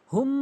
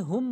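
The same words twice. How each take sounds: First: হুম with a long nasal m; হুম with ghunnah. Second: হুম with a short m; mispronounced হুম. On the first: Teacher showing the right way, long hummed হুম. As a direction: hold the hum at the end of হুম. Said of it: "সঠিক উচ্চারণ". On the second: Teacher showing the error, short হুম. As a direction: stop হুম without holding the hum. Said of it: "হুম বলছি". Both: Shown as a demonstration.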